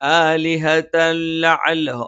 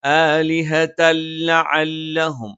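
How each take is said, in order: The two takes are said the same way.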